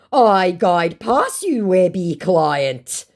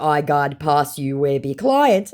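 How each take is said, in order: First: Slow, raised, louder impression; mock boastful scammer. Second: Said in the usual way. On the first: Scammer offering to show clients, mock boastful. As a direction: stretch each word as a put-on brag.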